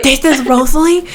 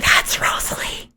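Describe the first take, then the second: First: Gasping surprise. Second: Excited hushed whisper. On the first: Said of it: "he's, he's, like, whispering". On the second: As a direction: whisper it in awe. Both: Acted.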